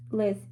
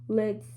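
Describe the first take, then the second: No difference in how they are said.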